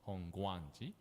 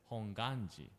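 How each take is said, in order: First: The word has a w sound after g. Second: The word has no w sound after g. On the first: This follows the older spelling of the name. The speaker calls it wrong. "not Hongguanji" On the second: This is how the name is said today. The speaker calls it right. "we just pronounce it as Honganji"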